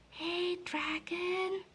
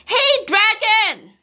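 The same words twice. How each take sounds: First: Soft, slow, high whisper; whispered very softly. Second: Loud, high, slow yell into his ear; shouted loudly. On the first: Princess checking the sleeping dragon, soft whisper. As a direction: test if he's asleep, barely a breath. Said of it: "whispered very softly". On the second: Princess yelling into the dragon's ear, loud shout. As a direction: bellow right into his ear. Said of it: "shouted as loud as she could". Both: Acted.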